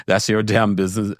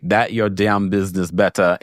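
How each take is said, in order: First: Said in the usual way. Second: Lightly voiced Jamaican accent; a hint of Jamaican in the quote. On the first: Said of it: "I just said that in my Jamaican". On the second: Host reading a viewer's comment, with a light Jamaican accent. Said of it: "in my Jamaican".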